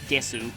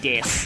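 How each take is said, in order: First: The final u vowel is pronounced. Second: The final u vowel is dropped.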